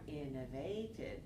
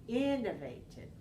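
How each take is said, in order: First: The stress is on the third syllable. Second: The stress is on the first syllable. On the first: The speaker calls it wrong. "you're changing to stress on the third syllable" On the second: The speaker calls it right. "keep the stress on the first syllable"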